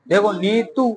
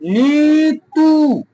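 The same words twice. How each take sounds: First: Said in the usual way. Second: नीतू with the ई and ऊ drawn out very long; teacher spelling नीतू aloud for the class, stretching every vowel; stretched long vowels. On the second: Shown as a demonstration. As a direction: sing out नीतू slowly, holding each long vowel. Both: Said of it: "हमने जोर से बोला नी".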